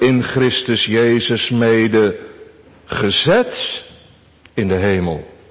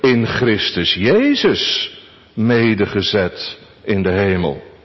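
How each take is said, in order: First: The stress falls on the part gezet. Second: The stress falls on Christus Jezus. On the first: "Onze tweede gedachte" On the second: "En onze vierde gedachte"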